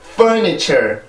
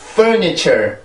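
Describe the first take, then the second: No difference in how they are said.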